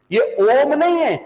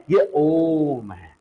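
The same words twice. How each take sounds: First: ओम said short and clipped. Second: ओम stretched slowly into a long chanted vowel; drawn-out om. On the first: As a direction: say ओम quickly as the wrong version. (छोटा, जल्दी बोला गया ओम) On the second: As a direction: hold the ओ in ओम like a chant. (धीरे, लंबा खींचा हुआ ओम) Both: Shown as a demonstration.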